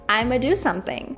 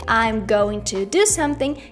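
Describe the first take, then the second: First: I'm going to is reduced to I'ma. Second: I'm going to is said in full. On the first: "you can also say I'ma" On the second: "instead of saying"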